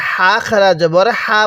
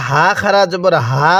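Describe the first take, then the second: First: "হা" with light air pushed out; breath-heavy Arabic h on "হা", vowel held; airy throaty ha. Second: "হা" with a light sound in the mouth; plain light h on "হা", vowel held; light voiced ha. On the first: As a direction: let breath stream out on "হা". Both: Shown as a demonstration. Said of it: "উচ্চারণের মধ্যে যে ডিফারেন্সটা আছে".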